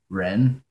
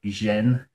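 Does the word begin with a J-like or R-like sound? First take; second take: R-like; J-like. First: It begins with a sound like English R. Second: It begins with a sound like English J. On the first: "Just pronounce it like a like an English R" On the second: "pronounce it more like a J sound"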